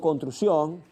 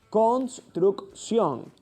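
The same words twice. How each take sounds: First: The sounds of the word are slurred together. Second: Each sound of the word is said distinctly. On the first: The speaker calls it wrong. "ahí hay una falla en la articulación" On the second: The speaker calls it right. "Cuando tú lo dices de esa manera, obviamente tu articulación es buena"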